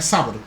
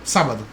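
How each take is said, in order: Both takes have the same delivery.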